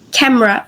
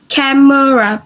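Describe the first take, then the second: First: No vowel is heard between m and r. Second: A short vowel is heard between m and r. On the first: The speaker calls it right. "So the schwa in here, the bold red schwa is delay, deleted" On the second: The speaker calls it wrong. "do not pronounce as camera"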